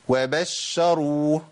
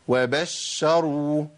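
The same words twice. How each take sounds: No difference in how they are said.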